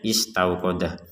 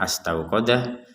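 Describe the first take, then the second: First: The word begins with an 'i' vowel. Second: The word begins with an 'a' vowel. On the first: The speaker calls it right. "memang ini cara membacanya" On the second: The speaker calls it wrong.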